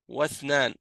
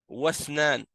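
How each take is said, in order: The two takes are said the same way.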